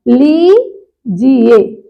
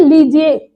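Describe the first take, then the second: First: लीजिए very slow, long lee, then ji-ye apart; शुद्ध उच्चारण. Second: लीजिए at everyday speed, run together; आम उच्चारण. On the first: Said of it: "बड़ी की मात्रा". (लीजिए में "ली" खींचकर) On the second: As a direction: say लीजिए casually as one word. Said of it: "तो ये अशुद्ध है". (लीजिए सामान्य गति से) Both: Shown as a demonstration.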